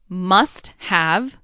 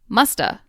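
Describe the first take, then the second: First: The word 'have' is said in full. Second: The word 'have' is reduced to a schwa.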